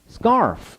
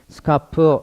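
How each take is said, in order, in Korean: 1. 영어처럼, 강세가 있는 한 음절로 발음합니다. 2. 한국어 음절처럼, 각 음절을 고르게 발음합니다. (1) "이런 식으로 강세 주시면 좋겠습니다" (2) "스카프 이러지 말고 이러면 한국말이잖아요"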